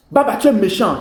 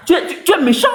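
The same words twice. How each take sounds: First: Said in the usual way. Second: Put-on high, sulky child's whine of "méchant"; whiny childish reproach. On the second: To Baba on the live, a mock child's whine. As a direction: pout it out like a hurt kid.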